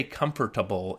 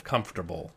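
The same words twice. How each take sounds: First: "comfortable" with every written syllable sounded; fully enunciated "comfortable", no syllable dropped; spelling pronunciation. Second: Said in the usual way. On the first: Shown as a demonstration. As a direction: say "comfortable" as com-for-ta-ble, as it is spelt. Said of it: "because they've read it". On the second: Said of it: "instead of comfortable".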